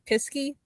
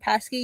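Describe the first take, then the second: First: The first vowel is a short 'ih' sound. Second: The first vowel is an open 'ah' sound. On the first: The speaker calls it wrong. "you say Pisky every time you say his name" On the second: The speaker calls it right. "my little pet in my Saturday night game"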